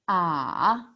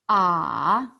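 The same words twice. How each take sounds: The two takes are said the same way.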